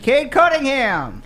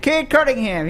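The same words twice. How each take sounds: First: The name is said in a happy, emphatic way. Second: The name is said in a plain, neutral way. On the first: The announcer is especially pleased about this pick. "He sounded a little more happy" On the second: This is the usual routine announcement. "normally they just say"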